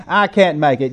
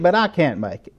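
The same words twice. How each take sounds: First: Said in the usual way. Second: I punched, set against you; stress on I. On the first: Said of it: "I'm just an ordinary person". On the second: Retold or imitated. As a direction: lean on the word I, can't make it fading. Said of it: "You can make it".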